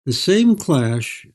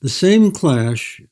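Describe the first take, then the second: No difference in how they are said.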